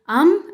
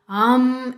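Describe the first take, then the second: First: The vowel is short. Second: The vowel is held longer.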